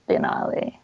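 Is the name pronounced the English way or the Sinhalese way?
Sinhalese. The name is said with Sinhalese-style pronunciation. This is the original form in the name's home language. "the actual pronunciation is Denali"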